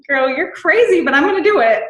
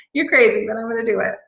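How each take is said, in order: First: Higher and louder, half laughing at the idea; loud excited exclamation. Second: Said in the usual way. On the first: Retold or imitated. To a friend about leaving voice messages, a loud excited squeal. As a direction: squeal it like you can't believe you agreed. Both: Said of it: "I was like".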